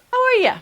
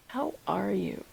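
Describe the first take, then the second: First: High, loud, quick cheery hello; bright greeting. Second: Soft, low-key check-in; low-key greeting. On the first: Actor showing one reading of a line, bright high greeting. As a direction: greet them loudly with a big upswing. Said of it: "I can interpret this line in multiple ways". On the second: Actor showing a second reading of the line, soft and low-key. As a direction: ask it quietly, much softer. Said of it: "interpret this line in multiple ways". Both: Shown as a demonstration.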